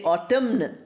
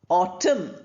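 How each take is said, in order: First: The final N sound is pronounced. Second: The final N sound is silent. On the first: The speaker calls it wrong. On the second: The speaker calls it right.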